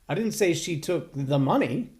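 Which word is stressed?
took. The emphasis is on the word 'took'.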